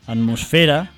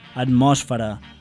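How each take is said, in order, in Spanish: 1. El acento recae en la penúltima sílaba. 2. El acento no recae en la penúltima sílaba. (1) "fent-les tal com són, planes" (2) "no haurem de dir"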